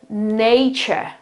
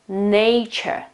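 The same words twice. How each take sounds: No difference in how they are said.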